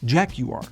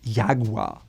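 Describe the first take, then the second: First: It is said the British way. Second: It is said the German way.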